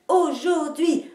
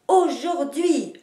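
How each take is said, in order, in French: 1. L'accent est sur la première et la dernière syllabe. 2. L'accent est sur la première et la dernière syllabe.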